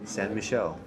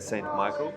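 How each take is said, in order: First: The name is said the French way. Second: The name is said the English way. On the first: The speaker calls it right. "That's how you pronounce it" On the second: The speaker calls it wrong. "My pronunciation wasn't great"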